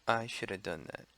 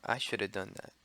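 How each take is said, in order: No difference in how they are said.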